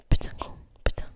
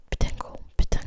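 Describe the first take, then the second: No difference in how they are said.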